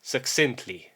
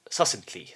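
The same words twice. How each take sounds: First: "Succinctly" said as suhk-SINT-lee, with the k; careful "Succinctly" with a clear k-s in the middle; corrected pronunciation. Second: "succinctly" said as suh-sint-lee, without the k; mistaken pronunciation. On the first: Shown as a demonstration. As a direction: copy the model, putting k before s in "Succinctly". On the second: Real, not acted. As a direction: drop the k in "succinctly", soft and low. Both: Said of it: "I thought it was pronounced differently".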